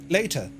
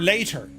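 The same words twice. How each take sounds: First: The final r is dropped. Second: The final r is clearly sounded. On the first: "England would be like later" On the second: "we can pronounce our R's"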